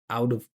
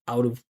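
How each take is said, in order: No difference in how they are said.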